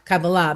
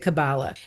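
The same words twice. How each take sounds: First: The stress falls on the last syllable. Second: The stress falls before the last syllable. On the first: This is how it is said in Hebrew. "in Hebrew, there's the accent is on the last syllable, just like Torah" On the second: This is how it is said in America. "we're in America, so we say Kabbalah"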